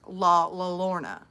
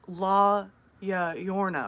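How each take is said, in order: First: The double L sounds like an English L. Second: The double L sounds like an English Y. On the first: "somebody told me it was pronounced La La Lorna" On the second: "somebody told me it's um La Ya Yorna"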